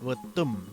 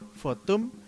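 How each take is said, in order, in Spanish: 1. La palabra empieza con un sonido V/B. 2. La palabra empieza con un sonido F. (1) "dicen Votum, con, como con B" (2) "en otras zonas se dice Fotum, con F"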